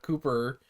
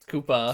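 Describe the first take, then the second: First: The word ends with a hard r sound. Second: The word ends with an open ah sound. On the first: The speaker calls it wrong. "not Koopa with a hard R" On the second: The speaker calls it right. "they said it with an A"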